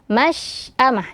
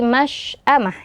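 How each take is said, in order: First: The sh sound is made without rounding the lips. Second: The sh sound is made with rounded, protruding lips. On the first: The speaker calls it right. "Tetap masy'amah" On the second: The speaker calls it wrong. "Jangan sampai menjadi masy'amah"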